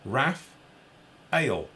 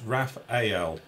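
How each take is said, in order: First: Raphael said as "Raph", pause, "Ale"; two slow beats, "Raph ... Ale"; corrected pronunciation. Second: Raphael drawn out as three parts, "Raph-ay-el"; mistaken pronunciation. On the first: Host reading a listener's correction, slow and split in two. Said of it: "It's pronounced". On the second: Host reading out his own mistake, slowly in three syllables. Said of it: "not Raphael". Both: Shown as a demonstration.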